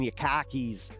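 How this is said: It is said in a Boston accent.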